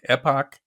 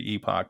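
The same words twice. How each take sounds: First: It is said with an American pronunciation. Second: It is said with a British pronunciation. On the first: "over here, people are pronouncing it like epoch" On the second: "Like in England, they say epoch"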